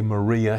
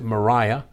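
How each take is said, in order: First: The name is said in the usual American way. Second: The name is said with a long 'eye' sound. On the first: This is how the name is normally said today. "the way we would say Maria here in the States" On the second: This is how the woman's own circle said her name. "they pronounced it Mariah"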